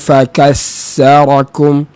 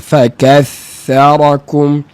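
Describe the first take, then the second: First: The doubled consonant sounds like an s. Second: The doubled consonant is a continuous th sound. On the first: The speaker calls it wrong. "dia tarik masuk dalam, jadi macam huruf sin juga, suaranya suara sin" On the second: The speaker calls it right. "Bunyi huruf tha sukun bersabdu itu dia berterusan"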